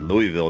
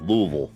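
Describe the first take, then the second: First: Louisville is said the non-Southern way. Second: Louisville is said the Southern way. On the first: The speaker is not from the South. The speaker calls it wrong. "you're not from the South right there, is because he said Louisville" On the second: The speaker is from the South. The speaker calls it right. "not Louisville"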